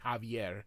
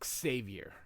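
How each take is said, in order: First: The name starts with a Spanish J sound. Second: The name starts without a Spanish J sound. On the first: This is the Spanish form of the name. "in Spanish they use the J sound" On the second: This is the English form of the name. "but in English it's Xavier"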